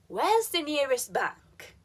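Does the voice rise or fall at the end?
fall. The voice falls at the end.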